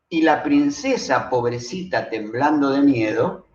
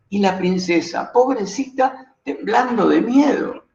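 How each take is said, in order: First: It is said flatly, with no clear emotion. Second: It is said with a trembling, near-tearful voice.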